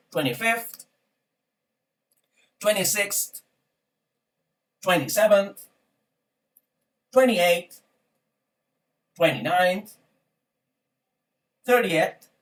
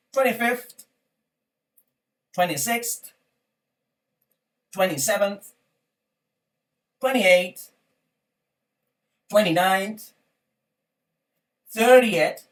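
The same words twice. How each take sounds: The two takes are said the same way.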